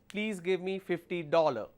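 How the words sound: It is said in a British accent. "British way of saying it"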